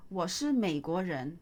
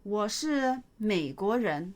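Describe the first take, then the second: First: Said in the usual way. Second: Slow model reading. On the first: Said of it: "teacher repeats at normal speed". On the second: Shown as a demonstration. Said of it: "teacher models sentence slowly".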